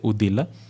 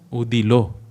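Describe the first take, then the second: First: The word ends with an 'a' vowel. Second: The word ends with an 'o' vowel. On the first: This is the form commonly used. "but we'll say Udila" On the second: This is the original pronunciation. "Udilo is the right pronunciation"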